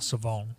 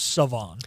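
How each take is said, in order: First: The final syllable gets strong emphasis. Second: The final syllable gets only light emphasis. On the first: The speaker calls it right. "so much emphasis on the O at the end" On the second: The speaker calls it wrong. "I just thought it was Savon"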